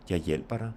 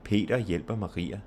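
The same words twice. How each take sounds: First: "hjælper" stressed, "Jeg" and "dig" unstressed; weight only the verb "hjælper", keep "Jeg" and "dig" light. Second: "Peter", "hjælper" and "Maria" each stressed; stress on all words. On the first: Teacher showing unstressed pronouns, stress only on "hjælper". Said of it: "and no stress on you". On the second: Teacher contrasting names with pronouns, every word in "Peter hjælper Maria" stressed. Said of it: "stress on all of those words". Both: Shown as a demonstration.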